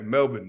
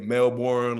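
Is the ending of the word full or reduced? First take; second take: reduced; full. First: The last syllable is reduced, almost like 'in'. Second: The last syllable is said full, American style. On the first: This is how locals say it. The speaker calls it right. "almost like it's spelled with like an E N, like an I N almost" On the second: This is how visiting Americans say it. The speaker calls it wrong. "Americans when they come over to Australia, they get to saying like"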